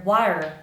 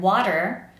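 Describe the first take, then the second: First: "water" with the middle tap almost gone; weakened tap in "water"; soft, lost D. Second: "water" with an audible d in the middle; firm tap in the middle of "water"; strong tapped D. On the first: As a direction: say "water" as wah-er, blurring the d. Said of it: "I kind of lose that D sound". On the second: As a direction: say "water" as wah-der, tap clearly heard. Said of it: "make sure that the sound is always strong". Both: Shown as a demonstration.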